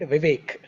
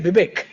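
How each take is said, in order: First: The name starts with a V sound. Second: The name starts with a B sound, Bengali-style.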